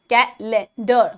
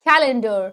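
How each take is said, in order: First: The stress is not on the first syllable. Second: The stress is on the first syllable. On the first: The speaker calls it wrong. "you may be pronouncing it as calendar, calendar, which is wrong" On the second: The speaker calls it right. "its first syllable should be showcased first by emphasizing on the ka"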